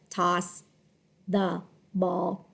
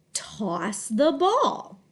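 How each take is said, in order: First: "toss the ball" word by word, low and level; lower, disconnected "toss the ball"; choppy monotone reading. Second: "Toss the ball" slow and connected, with a lilt on ball; drawn-out, natural-tuned "Toss the ball"; smooth expressive phrase. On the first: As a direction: read "toss the ball" with gaps and no tune. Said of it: "So it doesn't say". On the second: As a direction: glide through "Toss the ball", voice moving up then falling. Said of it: "see how my voice changes a little". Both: Shown as a demonstration.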